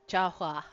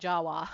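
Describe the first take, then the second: First: The last syllable begins with an h-like hua sound. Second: The last syllable begins with a plain w sound. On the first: The speaker calls it right. "the H W is supposed to be like a hua" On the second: The speaker calls it wrong. "I said Jawa instead of"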